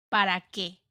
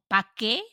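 First: The word para is said in full. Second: The word para is cut short to pa. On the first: "sería para qué" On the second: "si escuchas pa y luego sigue con algo, quiere decir para"

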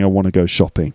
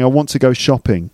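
First: Want to is reduced to wanna. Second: Want to is said fully, each word clear. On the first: "once you've got that, then you can start saying" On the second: "let's start by saying"

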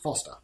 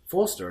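First: The name is said without an R sound. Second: The name is said with an R sound. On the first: The speaker calls it right. "so you don't say the R in Forster, like in Foster" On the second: The speaker calls it wrong. "I'm heading down to Forster"

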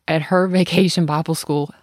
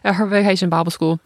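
First: It is said in a Southern Georgia accent. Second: It is said in her usual neutral accent.

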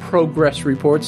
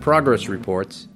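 First: It is said in a put-on Canadian accent. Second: It is said in the speaker's usual accent. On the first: "That's my Canadian accent" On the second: "I'm not Canadian"

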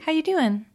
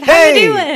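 First: It is said flatly with low energy. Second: It is said brightly with high energy. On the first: The speaker calls it wrong. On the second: The speaker calls it right.

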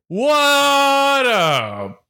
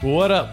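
First: The greeting sounds lively and high in energy. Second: The greeting sounds flat and low in energy. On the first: The speaker calls it right. "with a little more excitement" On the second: The speaker calls it wrong. "like it's a chore"

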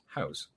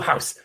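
First: It is said in a neutral, normal accent. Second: It is said angrily with a Canadian accent.

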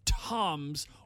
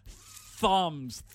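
First: The name begins with a hard t sound. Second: The name begins with a soft th sound.

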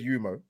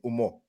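First: The name is said with an English pronunciation. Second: The name is said with a Nigerian pronunciation. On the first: "the English way is Umo" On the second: "The Nigerian way is Umo"

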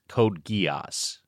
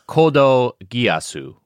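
First: It is said with English sounds and no final vowels. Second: It is said with Japanese syllables and final vowels. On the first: "So I think it's code Gyas" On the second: "I'm reading the katakana here"

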